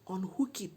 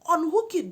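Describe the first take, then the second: First: Said in the usual way. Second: UNHOOK high and loud; emphatic angry demand. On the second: Retold or imitated. Woman ordering friend to undo hookup, angry demand.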